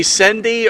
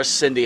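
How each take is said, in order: First: "Cindy" with an eh, as SEN-dee; first vowel of "Cindy" as in send; pronounced Sendy. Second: "Cindy" with a short i, as SIN-dee; first vowel of "Cindy" as in sin; pronounced Sindy. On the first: Host asking guest about her name, Cindy said as SEN-dee. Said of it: "Do we say Cindy or Cindy?". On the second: Host offering guest the other option, Cindy said as SIN-dee. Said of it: "How do we pronounce that?". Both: Shown as a demonstration.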